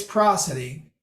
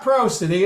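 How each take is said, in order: First: Prosody as PRAH-suh-dee, open first vowel; short-vowel pronunciation. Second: Prosody as PROH-suh-dee, with a long o; long-o mispronunciation. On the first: Lecturer confirming the pronunciation, PRAH-suh-dee prosody. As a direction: rhyme the start of prosody with moss. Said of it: "it's prosody". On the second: Lecturer rejecting a pronunciation, PROH-suh-dee prosody. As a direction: start prosody like the word pro. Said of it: "So it's not prosody". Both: Shown as a demonstration.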